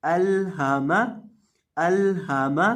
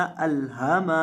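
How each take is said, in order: First: अल हा मा with neither lam nor meem lengthened; correct reading again. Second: अल हा मा with the final मा stretched too long; wrong reading, long meem. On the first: Teacher repeating the right form for students, even crisp reading. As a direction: read अल हा मा crisply and evenly. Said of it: "देख लें दोबारा". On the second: Teacher showing students the error, meem held too long. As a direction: stretch the meem in अल हा मा as the mistake to avoid. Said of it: "इस तरह से नहीं पढ़ना". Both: Shown as a demonstration.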